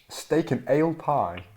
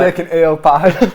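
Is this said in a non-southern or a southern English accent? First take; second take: southern; non-southern. First: It is said in a southern English accent. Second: It is said in a non-southern English accent. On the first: "if you're from the south, you pronounce it like" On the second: "but I I say like"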